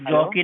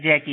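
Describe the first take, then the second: First: The first vowel is a rounded 'aw' sound. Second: The first vowel is an open 'a' sound. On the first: The speaker calls it wrong. "मेरा नाम जॉकी नहीं" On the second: The speaker calls it right. "जैकी है"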